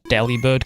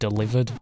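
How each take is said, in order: First: The name ends with the word 'bird'. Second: The name sounds like the word 'delivered'. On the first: The speaker calls it right. "official pronunciation's Delibird" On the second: The speaker calls it wrong. "can be pronounced delivered, as in like delivered"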